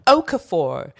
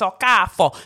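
First: The surname is said with a non-Igbo pronunciation. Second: The surname is said with the Igbo pronunciation. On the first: The name is said loosely, to tease listeners. The speaker calls it wrong. "I love saying my surname in that way to piss off all of the Igbo people" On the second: The name is said the way its speakers insist on. The speaker calls it right. "They're like, it's Okafor"

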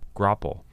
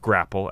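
First: The first syllable has a short O sound. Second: The first syllable does not have a short O. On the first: The speaker calls it right. "with a short O sound in the first syllable" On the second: The speaker calls it wrong. "not grapple, as Buzzy Cohen said it"

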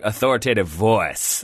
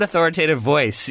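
First: It is said in a drawling Southern accent. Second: It is said in a plain accent.

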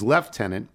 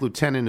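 First: The word is said in the British way. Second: The word is said in a non-British way.

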